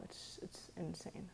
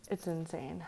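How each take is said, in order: First: Breathy hushed disbelief; whispered. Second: Said in the usual way. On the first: Real, not acted. Whispered then repeated aloud.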